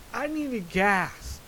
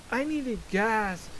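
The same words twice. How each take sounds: The two takes are said the same way.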